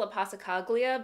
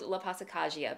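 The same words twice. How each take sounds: First: The 'gli' is said with a clear L sound. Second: The 'gli' is said with a Y-like sound. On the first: The speaker calls it wrong. "I've been mispronouncing" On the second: The speaker calls it right. "the L uh, has a j sound to it"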